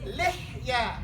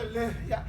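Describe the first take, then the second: First: The h is a harsh breath from the throat. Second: The h is a plain, light breath. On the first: The speaker calls it right. "The ha of the throat" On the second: The speaker calls it wrong. "it's not the lihya"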